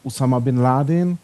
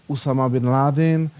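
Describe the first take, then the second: No difference in how they are said.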